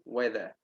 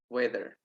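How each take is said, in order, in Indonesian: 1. R di akhir tidak dibunyikan. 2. R di akhir jelas dibunyikan. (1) "itu kalau di British itu weather. R-nya nggak kebaca" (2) "tapi kalau di American itu kebaca weather"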